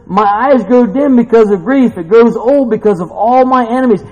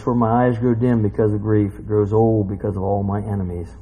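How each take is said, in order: First: Loud, high-pitched verse quote; preacher declaiming scripture at raised pitch; fervent preaching. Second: Low, even verse reading; sober scripture reading. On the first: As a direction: cry the lament out with force. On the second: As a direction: read the lament out gravely, unhurried. Same verse read out soberly. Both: Acted.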